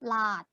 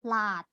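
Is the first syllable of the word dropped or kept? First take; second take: dropped; dropped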